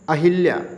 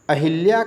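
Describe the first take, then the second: First: The second syllable has an 'i' vowel. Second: The same.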